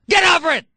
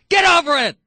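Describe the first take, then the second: No difference in how they are said.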